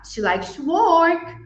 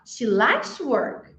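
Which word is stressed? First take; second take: work; likes. First: The word work carries the main stress. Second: The word likes carries the main stress. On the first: Working is surprisingly what she enjoys. "she doesn't know that what vacation is" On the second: She enjoys it rather than being obliged to. "I thought he had to do that"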